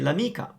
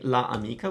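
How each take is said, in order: First: The a of la is dropped. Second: The a of la is fully pronounced. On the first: The speaker calls it right. "we say l'amica. It's faster" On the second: The speaker calls it wrong. "Instead of saying la amica"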